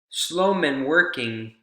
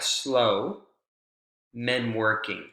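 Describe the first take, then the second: First: It is said as one phrase without a pause. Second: There is a pause after the first word. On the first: The men are not working very fast. "If this is all one thought group" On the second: Drivers should slow down because men are working. "A sign would say"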